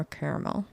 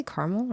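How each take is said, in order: First: "caramel" said as CARE-uh-mel; "caramel" with an eh and a middle vowel; three-syllable pronunciation. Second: "caramel" said as CAR-mul; "caramel" with an ah and no middle vowel; two-syllable pronunciation. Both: Shown as a demonstration. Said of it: "Do you say caramel or caramel?".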